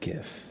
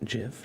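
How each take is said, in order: First: It begins with a hard g sound. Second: It begins with a soft j sound. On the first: The speaker calls it right. "I'm just gonna say it's GIF" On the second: The speaker calls it wrong. "Like the peanut butter brand?"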